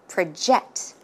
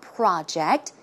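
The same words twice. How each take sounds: First: The stress falls on the second syllable. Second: The stress falls on the first syllable. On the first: The speaker calls it right. "When it's a verb, it should be project" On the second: The speaker calls it wrong. "the stress goes in the second syllable. As you can see, it's not project"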